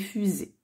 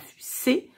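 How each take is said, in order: First: The middle consonant is a buzzing z sound. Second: The middle consonant is a hissing s sound. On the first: The speaker calls it right. "c'est le s qui fait z" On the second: The speaker calls it wrong. "ça fait pas fusée"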